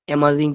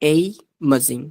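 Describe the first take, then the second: First: The first vowel is a short 'a' sound. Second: The first vowel is an 'ay' sound. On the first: The speaker calls it wrong. "অ্যামাজিং পড়বেন না আর" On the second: The speaker calls it right.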